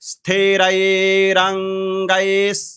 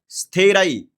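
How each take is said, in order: First: The word ends with an r linking onward. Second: The word ends in a plain vowel, no r. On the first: The speaker calls it right. "लेकिन उच्चारण करना है स्थिरैरङ्गैः" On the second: The speaker calls it wrong. "इसका स्थिरई नहीं बोलना है"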